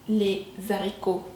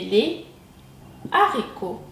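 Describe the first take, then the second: First: A z sound links the two words. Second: No z sound links the two words. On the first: The speaker calls it wrong. "on ne dit pas les haricots" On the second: The speaker calls it right. "mais les haricots"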